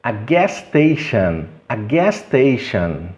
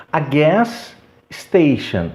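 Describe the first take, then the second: First: "gas station" slowly joined with one S. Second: "gas station" slow, pause between both S sounds; palavras separadas. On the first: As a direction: run "gas station" together as gas-tation. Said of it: "eliminar um deles e falar apenas um". ("gas station" ligado, um único S) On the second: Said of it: "os sons aqui são iguais". ("gas station" lento, separado, dois S) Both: Shown as a demonstration.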